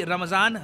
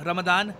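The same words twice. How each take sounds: First: "रमज़ान" said with z; subcontinental pronunciation. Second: "रमदान" said with d. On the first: Explainer setting both names side by side, subcontinental pronunciation. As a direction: give "रमज़ान" its z sound. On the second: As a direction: give "रमदान" a d where z would be. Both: Shown as a demonstration. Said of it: "pronunciation का फ़र्क है".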